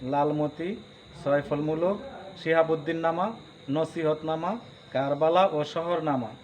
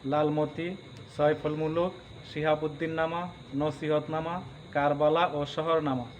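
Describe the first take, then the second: Both takes have the same delivery.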